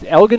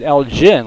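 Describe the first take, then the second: First: The G sounds hard, as in go. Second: The G sounds soft, like a J. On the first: This is how the town in Texas says it. "it's Elgin with a hard G" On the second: This is how the town in Illinois says it. "they pronounce it Elgin like it's a J"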